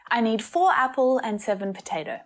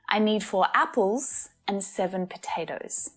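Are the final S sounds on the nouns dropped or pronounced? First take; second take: dropped; pronounced. First: The final S sounds on the nouns are dropped. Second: The final S sounds on the nouns are pronounced. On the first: The speaker calls it wrong. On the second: The speaker calls it right.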